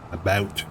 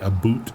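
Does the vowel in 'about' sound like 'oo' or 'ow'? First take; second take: ow; oo. First: The second vowel sounds like 'ow' in cow. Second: The second vowel sounds like 'oo' in boot. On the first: This is how Canadians actually say it. The speaker calls it right. "We say about in Canada" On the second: This is a stereotype of how Canadians talk. The speaker calls it wrong. "I do not say a boot, though"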